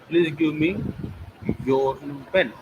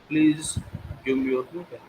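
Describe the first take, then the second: First: The word me carries the main stress. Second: The word please carries the main stress. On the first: The pen should go to this person only. "me, not to others" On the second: It is a polite request. "it means I'm requesting"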